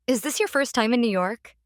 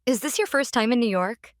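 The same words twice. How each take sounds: The two takes are said the same way.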